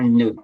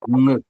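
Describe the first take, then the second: First: It is a plain front n with a vowel. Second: It is a nasal made in the throat. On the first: The speaker calls it wrong. "Ce n'est pas ne" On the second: The speaker calls it right. "on prononce ça avec la gorge"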